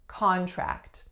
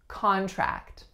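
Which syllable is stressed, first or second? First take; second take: first; first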